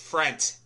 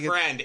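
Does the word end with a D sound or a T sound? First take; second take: T; D. First: The word ends with a T sound. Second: The word ends with a D sound. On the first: The speaker calls it right. "It's Frent. Like yeah, F-R-E-N-T" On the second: The speaker calls it wrong. "It's not friend"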